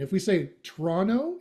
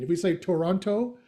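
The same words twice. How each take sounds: First: "Toronto" said as "Tronno", second t dropped; "Toronto" run together as "Tronno", rising at the end; Canadian Toronto. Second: "Toronto" said with every t, as "To-ron-to"; "Toronto" with the second t sounded clearly; outsider Toronto. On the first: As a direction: drop the second t in "Toronto" like a local. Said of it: "we're Canadian". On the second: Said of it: "you're not from anywhere near there". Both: Shown as a demonstration.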